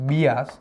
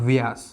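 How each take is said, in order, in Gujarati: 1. નામ B અવાજથી શરૂ થાય છે. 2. નામ V અવાજથી શરૂ થાય છે.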